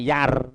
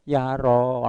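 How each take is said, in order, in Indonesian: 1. Vokalnya cuma ditahan satu ketukan pendek. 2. Vokalnya ditarik terlalu panjang. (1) "kalau satu harokat yar" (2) "sing kleru dawa"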